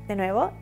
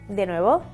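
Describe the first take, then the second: The two takes are said the same way.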